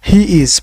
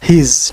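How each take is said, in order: First: It is said as two separate words. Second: It is said as one contracted word. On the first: "হির পরে আমরা বলতাম ইজ" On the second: "তো এটাই হচ্ছে contracted pronunciation"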